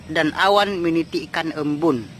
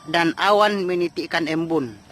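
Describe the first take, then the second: No difference in how they are said.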